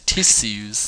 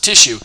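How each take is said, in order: First: The word is said in a dainty, refined way. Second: The word is said in a blunt, tough way. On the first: "If you want to be really fancy, say tissues. You delicate Southern belle" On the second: "Just say tissue. You know, be like a tough guy"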